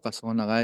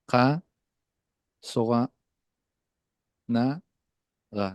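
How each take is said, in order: First: It is said quickly, as one smooth word. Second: It is said slowly, syllable by syllable. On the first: "Cuando yo digo mucho más rápido"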